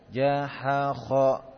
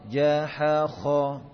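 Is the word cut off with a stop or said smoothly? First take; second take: cut off; smooth. First: The word is cut off with an abrupt stop. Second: The word flows smoothly without an abrupt stop. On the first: The speaker calls it wrong. "jangan gitu" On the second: The speaker calls it right. "gitu ya"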